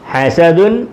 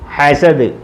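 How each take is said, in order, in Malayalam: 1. ഈ പദത്തിന്റെ അവസാനം ചേർത്ത 'un' ശബ്ദമാണ്. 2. ഈ പദം അവസാന ശുദ്ധ വ്യഞ്ജനത്തിൽ നിൽക്കുന്നു. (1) "എഴുതിയേക്കുന്നത് ഹസദുൻ" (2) "പറയേണ്ടത് ഹസദ്"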